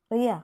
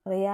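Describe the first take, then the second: First: Louder, sharper call of her name; raised voice. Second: Said in the usual way. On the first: Acted. Eby calling the silent Riya, voice raised. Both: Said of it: "അവൻ്റെ സ്വരം ഉയർന്നതും".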